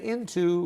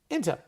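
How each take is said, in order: First: Both syllables of the word are fully pronounced. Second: The word is reduced with a weak second vowel. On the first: The speaker calls it wrong. "we don't say into" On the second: The speaker calls it right. "we say into"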